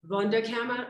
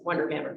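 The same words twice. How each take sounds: First: It is said with a German-style accent. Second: It is said with an American accent.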